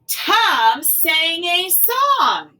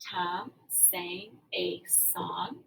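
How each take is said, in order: First: It is said loudly with excitement. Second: It is said flatly, falling at the end. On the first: It expresses excitement. The speaker calls it wrong. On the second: It is a plain statement. The speaker calls it right.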